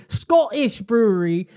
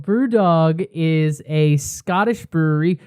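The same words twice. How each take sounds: First: Bad attempt at a Scottish accent. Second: Said in the usual way. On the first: Shown as a demonstration. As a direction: say it with a Scottish lilt. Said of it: "That was not Scottish". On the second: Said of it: "you say Scottish in a Scottish accent".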